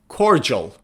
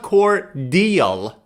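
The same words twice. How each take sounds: First: The word is said in the American way. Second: The word is said in a non-American way. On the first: The speaker calls it right. "it's cordial" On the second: The speaker calls it wrong. "It's not cordial in American pronunciation"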